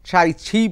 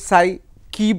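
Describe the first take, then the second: First: The name begins with a ch sound. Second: The name begins with an s sound. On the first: This is the original Mandarin pronunciation. "যেটা মূল Mandarin Chinese উচ্চারণ" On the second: Many people say it this way. "এটা অনেকে সাই কি বলছেন"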